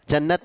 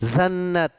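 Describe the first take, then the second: First: The word starts with a hard 'j' sound. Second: The word starts with a buzzing 'z' sound. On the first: The speaker calls it wrong. "जन्नत नहीं है" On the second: The speaker calls it right. "नुक्ता लग गया तो इसका प्रयोग बिल्कुल अलग तरीके से होगा"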